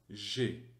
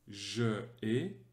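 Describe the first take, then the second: First: The vowel of je is dropped before ai. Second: The vowel of je is kept before ai. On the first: The speaker calls it right. "mais plutôt j'ai" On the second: The speaker calls it wrong. "on ne va pas dire je ai"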